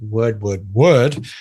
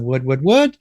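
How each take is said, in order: First: The pitch falls at the end. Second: The pitch rises at the end. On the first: It gives a command. "the command tone where the tone goes down the end" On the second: It turns the words into a question. "where the tonality goes up. So word, word, word, it's going up. So it's a question tone"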